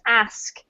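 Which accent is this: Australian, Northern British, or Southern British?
Northern British. It is said in a northern British accent. "from the north of the U K"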